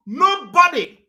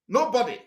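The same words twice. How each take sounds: First: NOBODY high and loud; loud emphatic. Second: Said in the usual way. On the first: Real, not acted. Speaker barring all politicians from Biafra, loud emphatic. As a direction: cry out "nobody" as a ban. Emphatic repeat in angry vow.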